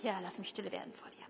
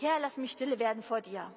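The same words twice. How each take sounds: First: Breathy whispered prayer, a bit quick. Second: Said in the usual way. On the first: Shown as a demonstration. Repeats the prayer to himself. (leise geflüstertes Gebet) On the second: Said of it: "Da stand dran, „Ich such dich".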